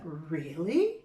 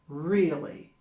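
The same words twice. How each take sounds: First: It sounds excited and surprised. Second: It sounds disappointed and annoyed.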